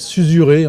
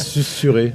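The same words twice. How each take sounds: First: The middle consonant sounds like a z. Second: The middle consonant sounds like an s. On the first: This is how the spelling would suggest it. The speaker calls it wrong. "ça s'écrit susurrer en fait" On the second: This is how the word is actually said. The speaker calls it right. "Mais ça se dit susurrer"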